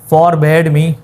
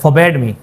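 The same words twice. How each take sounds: First: The r sound in forbade is pronounced. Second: The r sound in forbade is dropped. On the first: The speaker calls it wrong. "ये भी कह सकते हैं आप" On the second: The speaker calls it right. "आर को इतना ज़्यादा खाते में नहीं लाते हैं गोरे, तो हम भी नहीं लाए तो बेहतर है"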